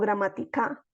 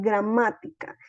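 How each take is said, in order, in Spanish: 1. El acento no cae en la sílaba 'má'. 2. El acento cae en la sílaba 'má'. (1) "Yo no puedo decir gramática" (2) "Es gramática"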